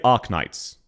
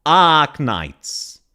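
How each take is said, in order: First: "Arknights" said flat, short unstressed "Ah"; flat Australian pronunciation. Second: "Arknights" with a big stretched first vowel; exaggerated wrong vowel. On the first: Shown as a demonstration. Showing how we would say Arknights, very flat. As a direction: say "Arknights" evenly with no R sound. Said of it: "It's very flat". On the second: Showing how she says Arknights, overdone vowel. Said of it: "you hear how she's going".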